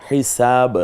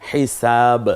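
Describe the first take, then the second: Both takes have the same delivery.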